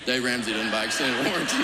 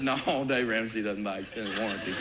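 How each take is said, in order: First: Firm repeat, no longer just amused; firm insistence. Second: Amused denial. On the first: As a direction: press the point home, laughing. Repeated, promising firmly. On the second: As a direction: deny it, chuckling under the breath. First calm denial. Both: Retold or imitated.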